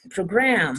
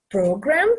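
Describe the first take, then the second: First: "program" stressed on GRAM; pro-GRAM, weight on the last syllable of "program"; verb stress. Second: "program" stressed on PRO; PRO-gram, weight on the first syllable of "program"; noun stress. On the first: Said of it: "Se a última sílaba que é tônica". ("program" com a última sílaba tônica) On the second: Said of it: "é o substantivo". ("program" com a primeira sílaba tônica) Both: Shown as a demonstration.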